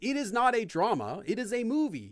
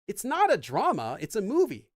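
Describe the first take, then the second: First: The word not gets no special stress. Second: The word not is strongly stressed. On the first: It simply states a fact. "You're not saying" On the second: It corrects a wrong idea. "that more contrasting not"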